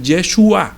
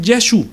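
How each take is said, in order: First: "Yeshua" with the final A fully sounded; full Yeshua. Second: "Yeshu" ending on the u, final A dropped; Yeshu without final A. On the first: Preacher gives congregation the full name, "Yeshua" with final A. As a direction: say "Yeshua" in full, ending on an open A. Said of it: "pero no dicen Yeshua". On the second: Preacher shows how they shorten the name, "Yeshu" without its A. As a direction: say "Yeshu" cut to two syllables, ye-SHU. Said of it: "le quitaron la A y dicen Yeshu". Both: Shown as a demonstration.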